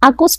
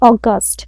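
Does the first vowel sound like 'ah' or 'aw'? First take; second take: ah; aw. First: The first vowel is an open 'ah' sound. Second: The first vowel is a rounded 'aw' sound. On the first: The speaker calls it wrong. "অনেক সময় আমরা ... আগস্ট বলে থাকি" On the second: The speaker calls it right. "ওইটার pronunciation হচ্ছে অগাস্ট"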